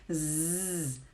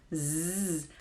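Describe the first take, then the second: First: A long buzzing z with the tongue behind the teeth. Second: A long buzzing z with the tongue behind the teeth.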